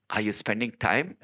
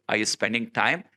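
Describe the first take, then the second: No difference in how they are said.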